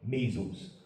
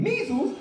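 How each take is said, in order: First: Low, soft doctor's verdict; hushed, low pronouncement; grave diagnosis. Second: High-pitched disbelieving question; comic astonished squeak; incredulous echo. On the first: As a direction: drop the word quietly, low in the voice. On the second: Patient reacts to the diagnosis. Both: Retold or imitated.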